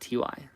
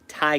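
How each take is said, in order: First: The name is spelled out as two letters. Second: The name is said as one syllable. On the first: The speaker calls it wrong. "not T Y" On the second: The speaker calls it right. "Ty Gallo, not T Y"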